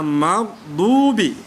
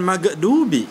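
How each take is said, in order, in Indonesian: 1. Konsonan sebelum 'dubi' mengalir halus tanpa memantul. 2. Konsonan sebelum 'dubi' memantul seperti huruf henti. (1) "maghdubi bukan magdubi karena huruf gha bukan qalqalah" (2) "bukan magdubi"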